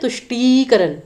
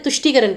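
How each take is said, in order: First: The vowel after 'ṭ' is drawn out long. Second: The vowel after 'ṭ' is said quickly and short. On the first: The speaker calls it wrong. "हम ये नहीं कहते" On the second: The speaker calls it right. "तुष्टिकरण कहते हैं। तो ट ई की मात्रा भी जल्दी बोली जाती है।"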